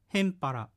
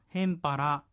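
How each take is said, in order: First: The final syllable is clipped, with no clear vowel. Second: The final 'ra' is pronounced clearly and fully.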